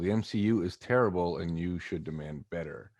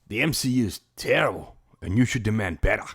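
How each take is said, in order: First: It is said in the speaker's usual accent. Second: It is said in a put-on Australian accent.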